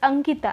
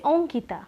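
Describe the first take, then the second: First: The name begins with an open 'ah' vowel. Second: The name begins with a rounded 'oh' vowel. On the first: "let's say your name is Ankita" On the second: "and if you say Onkita"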